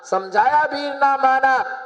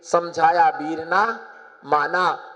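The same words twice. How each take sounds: First: High, held refrain for a crowd; emphatic refrain. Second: Said in the usual way. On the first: Real, not acted. Preacher giving congregation the refrain, emphatic. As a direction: lift it up for the listeners to echo.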